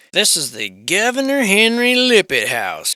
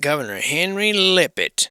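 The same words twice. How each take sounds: First: High and loud, with a hint of a tour-guide flourish; a touch of grand presenter; mock grand announcement. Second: Said in the usual way. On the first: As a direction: announce the house name like a lightly hammed-up show host. Reading out the house title.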